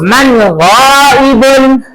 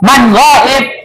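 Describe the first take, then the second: First: The last word ends with its full vowel ending. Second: The last word is cut without its vowel ending.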